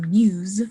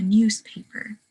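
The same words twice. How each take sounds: First: Said in the usual way. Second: "newspaper" with the Z of news turned to S; assimilated S. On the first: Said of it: "instead of saying". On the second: Shown as a demonstration. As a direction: say "newspaper" with a voiceless s before the p. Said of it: "being influenced by the seceding sound".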